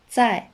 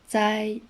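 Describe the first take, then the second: First: The syllable is said with a falling pitch. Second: The syllable is said without a falling pitch. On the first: "Avec le ton descend, ça devient" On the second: "ai avec z, ça devient"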